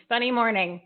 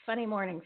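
First: Said in the usual way. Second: "Funny morning" said softly to herself; quiet aside. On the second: Shown as a demonstration.

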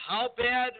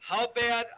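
No difference in how they are said.

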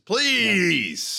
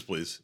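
First: Shouted please, Samuel Jackson style; yelled please. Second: Said in the usual way. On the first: Retold or imitated. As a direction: bark out the word please. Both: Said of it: "he says".

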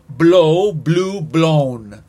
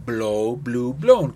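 First: "Blow" punched loud, then "blew, blown" falling; loud model take; loud model pronunciation. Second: "Blow" said low and calm, then "blew, blown" falling; low, calm echo take; lower repeat take. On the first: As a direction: model the forms firmly for the class. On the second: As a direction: repeat it more gently. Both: Shown as a demonstration. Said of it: "Para que vean y escuchen la pronunciación".

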